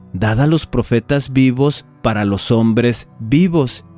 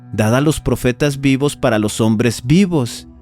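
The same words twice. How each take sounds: No difference in how they are said.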